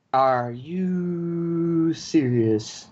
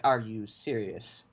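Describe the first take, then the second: First: Long exasperated drawl; drawn-out disbelief. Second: Low, quiet and slow, deflated; quiet disbelieving mutter; muttered disbelief. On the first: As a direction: stretch every word out very slowly, exasperated. Repeats it stretched out. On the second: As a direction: mutter it under your breath, done with this. In disbelief at no email. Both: Retold or imitated.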